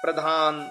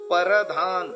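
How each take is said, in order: First: The p and r form one cluster. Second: A vowel is inserted between p and r. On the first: The speaker calls it right. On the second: The speaker calls it wrong.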